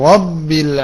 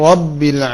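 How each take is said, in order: No difference in how they are said.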